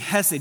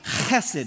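First: It begins with a soft, plain h sound. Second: It begins with a harsh, raspy throat sound. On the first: The speaker calls it wrong. "you don't just say Hesed" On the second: The speaker calls it right. "This is the hard H"

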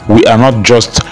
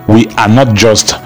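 Both takes have the same delivery.

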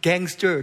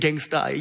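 First: The word ends with a full 'er' sound. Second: The word ends with a dropped-r 'uh' sound. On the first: The speaker calls it right. "Use it gangster" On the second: The speaker calls it wrong. "Don't say gangsta"

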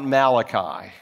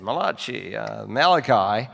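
First: It is said in a plain English way. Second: It is said in an Italian-style way.

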